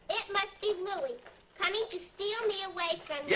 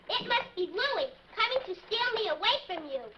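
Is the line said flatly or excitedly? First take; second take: flatly; excitedly. First: The line is said flatly, without excitement. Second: The line is said with excitement.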